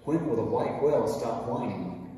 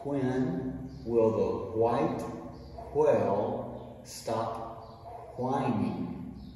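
First: It is said very fast. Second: It is said slowly.

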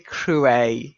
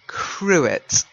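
First: The final t sound is silent. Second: The final t sound is pronounced. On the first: This follows the French way and sounds a little pretentious. The speaker calls it wrong. "It's a little pretentious to call it a crouet" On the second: This is the common everyday way to say it. The speaker calls it right. "a lot of people say cruet"

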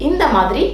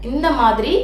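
No difference in how they are said.

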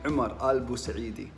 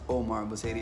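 First: The name is said with Arabic pronunciation. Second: The name is said with English-style pronunciation. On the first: The speaker calls it right. "it's actually" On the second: The speaker calls it wrong. "it's not"

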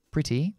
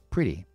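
First: The middle consonant is a crisp T. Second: The middle consonant is a soft D-like flap. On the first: "podemos pronunciar la true T, la T verdadera" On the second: "o podemos convertirlo en la flap T"

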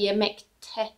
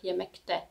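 First: The suffix begins with a voiceless T sound. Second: The suffix begins with a voiced D sound. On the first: The speaker calls it right. "it's easier to say yemekte" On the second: The speaker calls it wrong. "if we say yemekte with a D, D, D sound"

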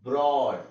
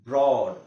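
Both takes have the same delivery.

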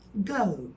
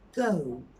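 First: The vowel glides off at the end. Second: The same.

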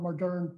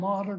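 First: The word has a French pronunciation. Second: The word has an English pronunciation.

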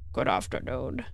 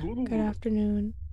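First: It is said in a put-on character voice. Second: It is said in his normal voice.

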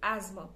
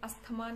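First: The 'th' is replaced by a 'z' sound. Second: The 'th' sound is pronounced. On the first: The speaker calls it right. "इसमें भी ज लगा दो" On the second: The speaker calls it wrong. "इसे अस्थमा नहीं कहते हैं"

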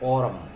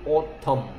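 First: The middle T is said softly and lightly. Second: The middle T is said hard and strong. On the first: The speaker calls it right. "살살 냅니다" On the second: The speaker calls it wrong. "T 소리는 세게 안 내요"

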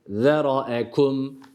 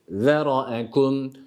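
Both takes have the same delivery.

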